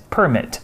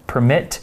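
First: Noun "permit" stressed on its first syllable, PER-mit. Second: Verb "permit" stressed on its second syllable, per-MIT. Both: Shown as a demonstration. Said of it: "notice the difference in stress".

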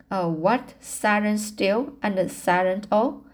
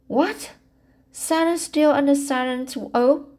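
First: Said in the usual way. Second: Higher, lightly mocking quote; teasing. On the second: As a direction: tease her friend with a playful line. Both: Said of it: "she quoted teasingly".

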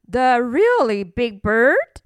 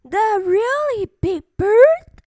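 First: Lightly puzzled question near the usual voice; questioning Wilbur. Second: High, louder chirpy question; little birds' chorus. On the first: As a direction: ask it with mild surprise, a bit louder. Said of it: "asked Wilbur". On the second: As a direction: ask like astonished little birds, pitched up. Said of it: "asked the little birds in chorus". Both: A narrator's reading.

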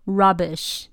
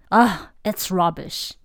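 First: Said in the usual way. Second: Scornful. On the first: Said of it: "Rubbish还有形容东西很烂的意思". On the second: Shown as a demonstration. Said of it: "像这样".

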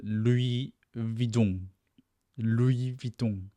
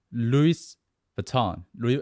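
First: Louis Vuitton in French, Louis with no S, Vuitton nasal; French pronunciation. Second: Louis Vuitton said the American way, with an S on Louis; American pronunciation. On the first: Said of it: "法文他们原本的发音是". (法文念法读Louis Vuitton) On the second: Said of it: "美式的念法叫". (美式念法读Louis Vuitton) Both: Shown as a demonstration.

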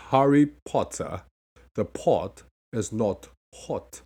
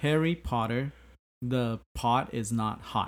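First: Slow British accent, pot and hot with a rounded o; crisp British accent, each t sounded. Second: American accent, flat t's in pot and hot. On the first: Teacher demonstrates the British accent, slowly. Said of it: "那如果念British accent的话，you gotta go". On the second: Student says it in American accent for the teacher. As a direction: say it the plain American way, pot as pahd. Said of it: "美式的". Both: Shown as a demonstration.

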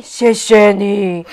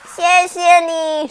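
First: Lower, slow grateful thanks; lower character voice. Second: High, slow grateful thanks; higher child voice. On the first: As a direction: say it lower and slower. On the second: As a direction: say it sweetly, higher. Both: Acted. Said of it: "互相说".

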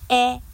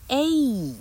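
First: A as the short open vowel in "cat"; A pronounced æ, not as the letter name; short A sound. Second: A as a long "ay", drawn out; A said slowly and higher as "ayyy"; letter-name A. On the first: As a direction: say A as a held "aah-eh", without gliding. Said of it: "它不再念A". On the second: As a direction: stretch A into its alphabet name, gliding to ee. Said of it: "它要念A". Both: Shown as a demonstration.

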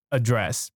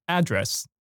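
First: "address" as uh-DRESS, weak opening vowel; stress on second syllable of "address". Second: "address" as AD-dress, punched at the front; American noun "address", stress the opening AD; stress on first syllable of "address". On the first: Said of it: "动词的时候都要念". (动词念法，address 重音放在第二音节) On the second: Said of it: "在美式英语里面念". (美式名词念法，address 重音放在第一音节) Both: Shown as a demonstration.

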